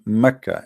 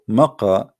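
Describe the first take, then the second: First: The middle consonant is a plain 'k' sound. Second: The middle consonant is a deep 'q' sound. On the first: "they pronounce the letter Qa as Ka" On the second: "they pronounce the letter Qa as Ka"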